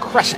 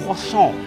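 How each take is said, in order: First: The final t sound is pronounced. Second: The final t sound is silent. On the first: The speaker calls it wrong. "That's the wrong pronunciation of it" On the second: The speaker calls it right. "The T is silent"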